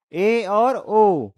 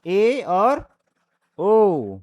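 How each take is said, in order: First: "ए" and "ओ" stretched very slowly, each vowel held; drawn-out vowels. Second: Said in the usual way. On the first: Shown as a demonstration. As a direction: sound out "ए और ओ" at a crawl, half-open mouth. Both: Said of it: "इसमें क्या होगा".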